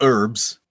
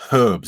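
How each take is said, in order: First: The word begins without any h sound. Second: The word begins with an audible h sound. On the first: The speaker calls it wrong. "It's not herbs" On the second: The speaker calls it right. "It's herbs. There's a H there"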